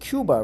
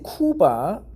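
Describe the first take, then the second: First: It is pronounced the American way. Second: It is pronounced the Korean way. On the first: "Americans pronounce it Cuba" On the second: "Koreans pronounce it Cuba"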